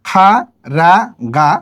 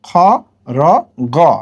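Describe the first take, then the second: First: Each consonant is followed by an open 'a' vowel. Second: Each consonant is followed by a rounded 'o' vowel. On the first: The speaker calls it wrong. "খা রা গা হয় না" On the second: The speaker calls it right. "হয় খ র গ"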